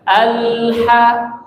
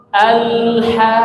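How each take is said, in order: The two takes are said the same way.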